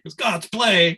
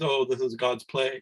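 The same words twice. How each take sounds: First: Louder, higher, indignant echo; offended repeat of the words; indignant retort. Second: Said in the usual way. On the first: Retold or imitated. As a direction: throw the phrase back, offended. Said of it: "it was the opposite mood". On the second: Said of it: "I made a comment along the lines".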